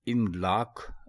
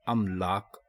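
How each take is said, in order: First: The word begins with an 'i' vowel. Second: The word begins with an 'a' vowel. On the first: The speaker calls it wrong. "अलिफ के नीचे ज़ेर ... गलत है" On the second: The speaker calls it right. "अलिफ के ऊपर ज़बर ... दुरुस्त है"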